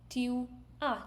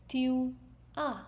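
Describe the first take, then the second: No difference in how they are said.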